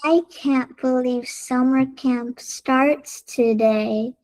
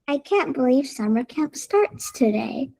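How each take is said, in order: First: It is said very slowly. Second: It is said at a normal, calm pace.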